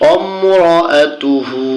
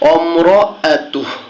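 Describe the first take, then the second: First: The word ends with a final u vowel. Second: The word ends on a bare h sound. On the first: The reading continues without a stop. "হা উল্টা পেশ হু" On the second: The reader stops at this word. "এখানে থামলে উচ্চারণটা হবে অমরাতুহ"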